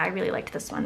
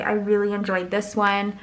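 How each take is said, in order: First: Said in the usual way. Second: Muffled, mouth inside a cup; talking into a cup. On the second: Real, not acted. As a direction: speak into the cup. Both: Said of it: "Sorry, I was, like, talking into the cup".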